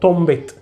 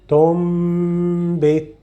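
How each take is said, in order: First: The nasal m sound is cut short. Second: The nasal m sound is held longer. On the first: The speaker calls it wrong. "don't make it quickly" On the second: The speaker calls it right. "What I am prolonging is the sound that we get from the nose"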